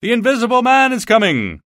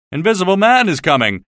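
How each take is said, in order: First: High, loud, panicked cry; terrified shout. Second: Mock shout, raised and higher; a fool shouting a warning, voiced in passing; retold shout. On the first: Acted. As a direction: scream the warning as you flee indoors. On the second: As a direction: call out the warning with some force. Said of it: "ran past me shouting".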